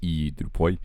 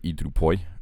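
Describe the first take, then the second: First: The first syllable is held long. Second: The first syllable is kept short. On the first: The speaker calls it right. "the iota becomes long because it's e drupoi" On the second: The speaker calls it wrong. "instead of e drupoi"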